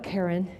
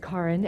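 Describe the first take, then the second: First: The name sounds like the common name Karen. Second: The name sounds unlike the common name Karen. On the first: The speaker calls it wrong. "It's not Karen" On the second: The speaker calls it right. "It's Karin"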